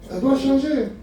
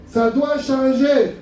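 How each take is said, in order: First: Said in the usual way. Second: "Ça doit changer" drawn out very slowly, pitched up; slow, insistent "Ça doit changer"; emphatic repeat. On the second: Real, not acted. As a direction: hammer home "Ça doit changer" word by word.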